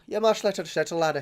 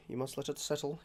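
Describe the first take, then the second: First: Higher, playful Scottish brogue; mock Scottish accent. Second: Said in the usual way. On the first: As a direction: repeat it as a hammed-up Scot.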